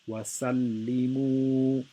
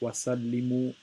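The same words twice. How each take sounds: First: The final 'mu' vowel is held for two beats. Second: The final 'mu' vowel is held for one beat. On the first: The speaker calls it right. "I'm saying the mu for two harakas" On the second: The speaker calls it wrong. "I'm not saying it for one haraka incorrectly"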